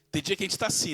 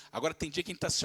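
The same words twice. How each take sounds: First: Upbeat and loud, full of fire; fired-up day. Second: Said in the usual way. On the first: Shown as a demonstration. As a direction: show the strong day, lifted and energetic.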